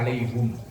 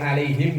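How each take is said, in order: First: The last vowel is an 'u' sound. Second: The last vowel is an 'i' sound.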